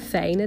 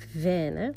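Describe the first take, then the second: First: The first vowel is a gliding Dutch diphthong. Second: The first vowel is a short, plain French e. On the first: The speaker calls it wrong. "In plaats van fijne dagen" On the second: The speaker calls it right. "het is dus echt Venne"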